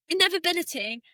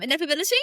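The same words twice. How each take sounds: First: Said in the usual way. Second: "Inevitability?" said with a doubtful rising tune; questioning the word. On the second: Shown as a demonstration. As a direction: ask "Inevitability?" as if unsure of the word, rising at the end. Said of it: "that's kind of random".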